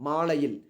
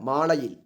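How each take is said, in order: No difference in how they are said.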